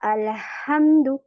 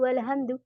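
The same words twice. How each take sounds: First: The h is a strong breathy throat sound. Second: The h is a plain, light h sound. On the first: The speaker calls it right. "सांस बाहर आएगी" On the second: The speaker calls it wrong. "हम छोटा हा पढ़ रहे होते हैं"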